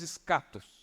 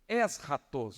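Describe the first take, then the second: First: The word is pronounced the everyday Portuguese way. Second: The word is pronounced the original Greek way. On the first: "Que nós falamos escatos" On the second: "Vem do grego um termo eschatos"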